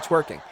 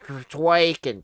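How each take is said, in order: First: The first vowel is an 'er' sound. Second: The first vowel is an 'a' sound. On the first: The speaker calls it right. "She just can't say the word twerking, even though it's an E" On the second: The speaker calls it wrong. "but you throw a T in there, twaking"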